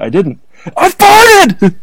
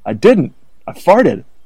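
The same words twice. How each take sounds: First: It is said loudly, like shouting. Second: It is said at a plain, normal volume. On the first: The speaker calls it right. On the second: The speaker calls it wrong.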